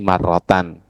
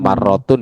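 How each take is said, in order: First: The word ends with an -an sound. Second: The word ends with an -un sound. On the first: The speaker calls it right. "bacanya di sini wa fi ba'din nusahi marrotan" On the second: The speaker calls it wrong. "dibaca marrotun ya gak apa-apa juga sih"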